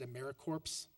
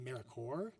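First: The ending is said like 'corpse', with p and s. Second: The ending is said like 'core', with p and s silent. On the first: The speaker calls it wrong. "I said AmeriCorps" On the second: The speaker calls it right. "it should be AmeriCorps"

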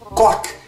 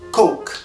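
First: The vowel is short, so it sounds like 'cock'. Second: The vowel is long, so it sounds like 'coke'. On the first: It sounds like a rude word for a body part. The speaker calls it wrong. "você tá falando coque e não coke" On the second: It means the soft drink. The speaker calls it right. "e não coke"

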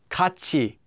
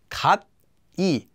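First: The consonant before the vowel is a ch. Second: The consonant before the vowel is a plain t.

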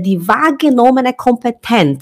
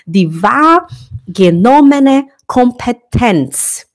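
First: The phrase is said at normal speed. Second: The phrase is said slowly and deliberately.

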